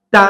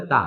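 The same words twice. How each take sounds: First: তা held then released with a pulse; hard pulsed তা. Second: তা said soft, not hard; the weak version of তা; wrong soft তা. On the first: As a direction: catch and release তা sharply. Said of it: "একটু ধরে ছেড়ে দেওয়া". (ধরে ছেড়ে শক্ত তা) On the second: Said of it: "শক্ত হইল না". (নরম ভুল তা) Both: Shown as a demonstration.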